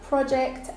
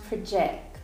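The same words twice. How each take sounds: First: The stress is on the first syllable. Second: The stress is on the second syllable. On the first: It is used as a noun. "usually the first syllable in nouns is the strong one" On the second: It is used as a verb. "second syllable in verbs is the strong one"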